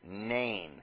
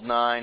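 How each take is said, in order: First: The vowel sounds like the 'ay' in 'day'. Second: The vowel sounds like the 'eye' in 'nine'. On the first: The speaker calls it wrong. "you want to pronounce the name of that first vowel" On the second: The speaker calls it right. "like the number, 9, is how you would say it. I'm going to say it that way"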